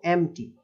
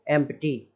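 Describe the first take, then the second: First: "एम्प्टी" said em-tee; correct silent P. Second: "एम्प्टी" with P sounded; mispronounced empty. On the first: Shown as a demonstration. Teacher showing how to read it, "एम्प्टी" with silent P. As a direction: say "एम्प्टी" with M straight into T, no P. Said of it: "but पढ़ेंगे इसको". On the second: Retold or imitated. Teacher mimicking readers, "एम्प्टी" with P sounded. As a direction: say "एम्प्टी" with a clear P before T. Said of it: "मैंने पढ़ते हुए देखा है".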